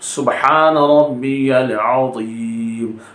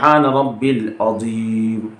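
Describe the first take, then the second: First: A 'ya' sound comes between rabbi and 'l'. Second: Rabbi runs straight into 'l' without 'ya'. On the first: The speaker calls it right. "रब्बी यल है।" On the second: The speaker calls it wrong. "सुबहान रब्बिल नहीं है।"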